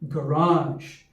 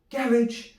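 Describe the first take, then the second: First: It is said in a standard American accent. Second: It is said in a standard English accent. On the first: "the standard American English pronunciation" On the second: "move across the water to England"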